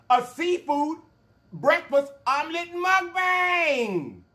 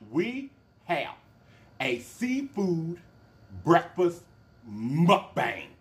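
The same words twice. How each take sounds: First: High, slow, shouted announcement; loud announcer call. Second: Said in the usual way. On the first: Shown as a demonstration. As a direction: stretch it out like a showman.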